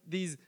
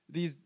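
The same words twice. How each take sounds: The two takes are said the same way.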